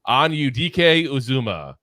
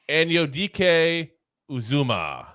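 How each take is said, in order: First: The name is said at a normal pace. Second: The name is said very slowly and carefully.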